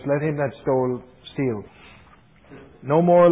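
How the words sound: There is a break right after the word steal. The thief is told to keep stealing. The speaker calls it wrong. "I know a fellow who read it like this"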